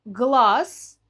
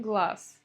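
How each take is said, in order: First: Глаз louder, ending in a buzzing "z"; voiced final Z. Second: Глаз ending in a hissed "s"; devoiced final consonant. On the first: Teacher showing spelling, глаз with voiced final z. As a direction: sound the written з in глаз. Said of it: "пишем с". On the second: Teacher showing real pronunciation, глаз with final s. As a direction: say глаз as "glas". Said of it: "говорим". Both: Shown as a demonstration.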